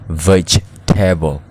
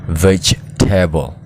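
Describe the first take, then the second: No difference in how they are said.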